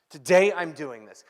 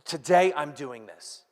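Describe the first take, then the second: First: Today I'm doing this, louder, stress on Today; emphatic repeat. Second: Said in the usual way. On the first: Shown as a demonstration. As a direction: punch Today harder the second time. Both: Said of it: "when somebody says".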